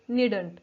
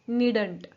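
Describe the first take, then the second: The two takes are said the same way.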